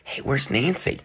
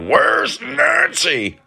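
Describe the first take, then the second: First: It sounds casual and friendly. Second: It sounds threatening and menacing.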